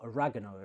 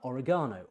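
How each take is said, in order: First: The word is said in an American way. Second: The word is said in a non-American way.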